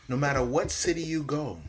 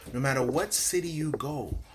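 No difference in how they are said.

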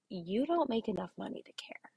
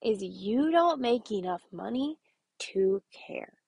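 First: Hushed, breathy whisper of the catchphrase. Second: Slow hushed catchphrase. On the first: To stressed teachers, whispering the key phrase. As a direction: lean in and whisper it like a secret. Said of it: "My response to that is". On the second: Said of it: "My response to that". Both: Shown as a demonstration.

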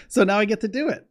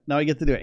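First: Much higher, real giddy joy; super happy. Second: Said in the usual way. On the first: Real, not acted. Telling viewers about his move, real excitement. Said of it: "I'm like a little kid, you know, I'm super happy". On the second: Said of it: "I'm super happy".

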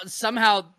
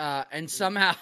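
First: A laughing second go at the word. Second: Said in the usual way. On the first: Real, not acted. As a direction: repeat it through a laugh, higher and louder. Repeats somehow laughing.

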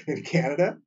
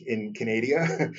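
First: Said in the usual way. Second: Hammed-up Canadian accent, Canada drawn out as "ca-NAY-dee-a"; slow mock-Canadian "ca-NAY-dee-a" for Canada; joking Canadian accent. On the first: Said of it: "I've amused myself so much". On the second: Podcaster amusing himself while greeting Canadian listeners, joking Canadian accent. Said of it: "trying to do my best Canadian accent".

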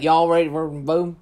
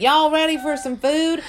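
First: Gravel-mouthed upstate New York twang; loud, garbled upstate New York accent. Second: High, loud Southern drawl; big, bright-pitched Southern twang; Southern accent. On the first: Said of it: "It's more gravel mouthed". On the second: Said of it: "Southern is like". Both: Shown as a demonstration.

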